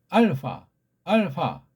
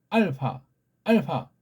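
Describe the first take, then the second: The two takes are said the same way.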